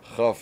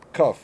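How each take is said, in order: First: It begins with a soft fricative ch sound. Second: It begins with a hard stop k sound. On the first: "Chaf is the soft" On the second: "kaf is the hard"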